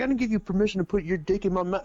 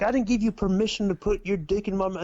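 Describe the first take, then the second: First: Imitating his delivery. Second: Said in the usual way. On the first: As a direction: rattle it off the way he said it. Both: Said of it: "hey, bro, he says it like this".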